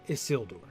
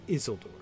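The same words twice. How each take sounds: First: The first syllable is left unstressed. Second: The first syllable carries the stress. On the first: This follows the naming rules. The speaker calls it wrong. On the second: This fits the poem's rhythm. The speaker calls it right. "the poem wants us to say"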